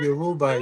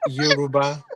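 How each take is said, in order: First: It is said with an American pronunciation. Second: It is said with a Nigerian pronunciation. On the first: "Americans would say Yoruba" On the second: "Nigerians would say Yoruba"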